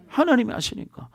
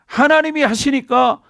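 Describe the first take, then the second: First: 하나님이 하시니까 repeated softer, falling at the end; quiet emphatic repeat; soft echo. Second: 하나님이 lifted high and drawn out slowly; emphatic slow 하나님이 하시니까; stress on 하나님이. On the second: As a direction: lean hard on 하나님이, slow and higher. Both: Shown as a demonstration. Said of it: "보세요".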